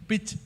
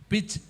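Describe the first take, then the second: Both takes have the same delivery.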